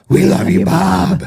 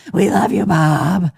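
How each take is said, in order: First: Loud, higher drag queen voice; Terry Seymour. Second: Mock drag queen call; Terry Seymour. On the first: Retold or imitated. Host imitating a drag queen calling to the sheriff, showy drag voice. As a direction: call it out in your best drag voice. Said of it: "in her best drag voice possible". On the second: Co-host punking a friend with the catchphrase, playful drag voice. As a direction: toss it out like a teasing drag queen. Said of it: "punk each other with that".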